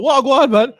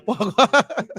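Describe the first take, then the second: First: Jamaican patois "Wagwan, man" with a raised pitch; mock patois greeting. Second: "Wagwan" half laughed out; laughing. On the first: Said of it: "Put a couple patois in there". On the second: Real, not acted. Amused by his own patois impression, laughing. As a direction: laugh through the word "Wagwan". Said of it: "Love that one".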